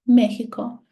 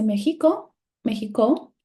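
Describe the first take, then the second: First: "Mexico" stressed on its first syllable, Me. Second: "Mexico" stressed on a later syllable instead of Me, rising; misplaced stress, questioning. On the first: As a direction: punch ME in "Mexico", then let it fall. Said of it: "my stressed syllable is me". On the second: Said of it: "What is my stressed syllable?". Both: Shown as a demonstration.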